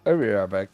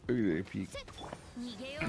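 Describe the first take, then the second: First: Said in the usual way. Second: Slow, much softer, drifting off; fading away. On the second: Real, not acted. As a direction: trail off as if walking away. Repeated while walking off.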